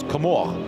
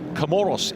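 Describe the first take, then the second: First: The name is said the French way. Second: The name is said the English way. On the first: "the French uh, pronunciation is Comore" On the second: "Comoros is the correct pronunciation"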